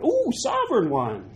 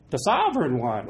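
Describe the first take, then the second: First: "Ooh, sovereign one" pitched much higher, teasing; mock awe. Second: Said in the usual way. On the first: Shown as a demonstration. Pastor mocking self-made gods, "Ooh, sovereign one" in mock awe.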